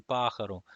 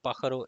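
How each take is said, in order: First: Pájaro with the accented á slightly lengthened; right pájaro. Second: Pájaro said quickly, without lengthening the accented á; pájaro with no stretch on the á, the wrong way. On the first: Teacher shows students the right way: pájaro, á stretched. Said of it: "it's gonna be pájaro". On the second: Teacher shows students the wrong way: flat pájaro. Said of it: "it's not pájaro". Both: Shown as a demonstration.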